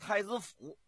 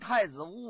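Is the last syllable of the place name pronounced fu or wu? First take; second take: fu; wu. First: The last syllable is pronounced fu. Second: The last syllable is pronounced wu. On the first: This is how local people say it. "他们一般的当地啊都叫太子府" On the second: This follows the written character. "但是你要说太子坞啊也不是不行"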